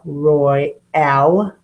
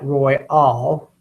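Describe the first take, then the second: First: The second syllable has an 'ah' vowel. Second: The second syllable has an 'aw' vowel. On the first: "she says to use the ah" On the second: "I guess that could be an O"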